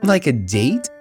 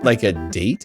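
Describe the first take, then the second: First: It is said in a put-on character voice. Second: It is said in his natural voice.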